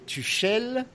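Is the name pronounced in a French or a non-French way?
French. The name is said with a French accent. "The French are going to say Tuchel"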